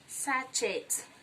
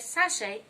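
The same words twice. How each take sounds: First: The final t sound is pronounced. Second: The final t sound is silent. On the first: The speaker calls it wrong. "and not sachet" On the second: The speaker calls it right. "letter T is silent in the word. So you say sachet"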